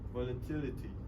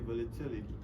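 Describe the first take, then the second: First: The t is a crisp, fully released t. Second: The t is a quick flap like d. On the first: "in British, they tend to uh, pronounce the t sound" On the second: "For American, we say"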